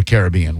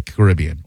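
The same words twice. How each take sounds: First: Caribbean with the stress shifted to the other syllable; alternative pronunciation of Caribbean. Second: Caribbean said with one of its two common stress patterns; variant pronunciation of Caribbean. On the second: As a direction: say Caribbean the first of two accepted ways. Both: Shown as a demonstration. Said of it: "whatever you wanna say there".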